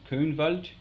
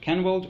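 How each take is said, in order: First: The name is said in a West Saxon pronunciation. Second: The name is said in a modern pronunciation.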